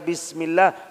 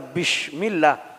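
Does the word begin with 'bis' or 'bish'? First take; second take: bis; bish. First: The first syllable has a plain s sound. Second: The first syllable has an sh sound. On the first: In the name of Allah. The speaker calls it right. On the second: It becomes an insult. The speaker calls it wrong.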